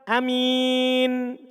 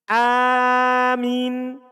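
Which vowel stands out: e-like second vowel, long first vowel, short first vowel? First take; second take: short first; long first. First: The first vowel is short, the second a clear i. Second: The first vowel is long, the second a clear i. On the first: "Hamzanya dibaca pendek" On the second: "Mimnya tidak tasdid, hamzanya panjang"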